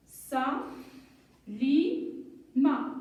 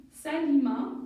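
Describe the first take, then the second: First: "sa, li, ma" with long pauses between; syllable by syllable. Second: Said in the usual way. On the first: Shown as a demonstration. Teacher building a name, "sa, li, ma" widely separated. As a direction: hold each syllable apart before blending. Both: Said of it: "un petit jeu de lecture".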